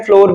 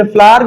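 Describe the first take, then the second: First: Flour said "फ्लोर", rhyming with "door"; American pronunciation as taught. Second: Flour said "फ्लावर", run together as "flaar"; British pronunciation. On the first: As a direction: say फ्लोर with a round "o". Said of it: "ये American लोग कहते हैं". (फ्लोर, अमेरिकी उच्चारण बताते हुए "ओ" के साथ) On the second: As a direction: say फ्लावर with an open "aa", British-style. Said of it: "फ्लावर कहते हैं हम ब्रिटिश में". (फ्लावर, ब्रिटिश उच्चारण में "फ्लार") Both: Shown as a demonstration.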